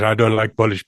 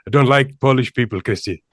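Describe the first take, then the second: First: Said in the usual way. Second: A hint of a Sri Lankan accent; lightly imitating a Sri Lankan coworker's accent; a Sri Lankan accent, barely put on. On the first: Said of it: "I'm gonna do an Indian accent". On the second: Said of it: "I'm gonna do an Indian accent, uh, Sri, Sri Lankan accent".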